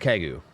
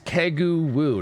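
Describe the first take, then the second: First: No W sound is pronounced at the end. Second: A final W sound is pronounced at the end. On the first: The speaker calls it right. "the W is actually silent at the end of it" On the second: The speaker calls it wrong. "No, it's not"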